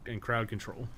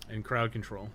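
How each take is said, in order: Both takes have the same delivery.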